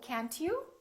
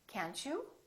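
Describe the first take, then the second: First: The T and you are said separately. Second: The T and you blend into a CH sound. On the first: The speaker calls it wrong. "we don't say can't you" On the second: The speaker calls it right. "This T also becomes kind of a C H sound"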